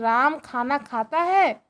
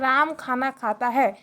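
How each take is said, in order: First: It is said as a question. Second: It is said as a plain statement. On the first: The listener is being asked something. "ये प्रश्न पूछा जा रहा है" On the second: The listener is being told something. "Normal हम भाषा में बोले"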